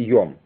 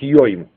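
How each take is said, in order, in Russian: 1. Гласная — простое o. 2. Гласная — дифтонг oi. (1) "он рифмует йом, фактически и йом" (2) "по идее по-ашкенаски должно быть йоим"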